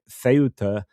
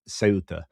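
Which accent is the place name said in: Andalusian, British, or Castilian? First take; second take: Castilian; Andalusian. First: A Spanish pronunciation starting with a 'th' sound. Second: A Spanish pronunciation starting with an 's' sound. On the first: "Spanish call it Ceuta um, if they are from sort of most of Spain" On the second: "Andalusia... they would pronounce it um, Ceuta"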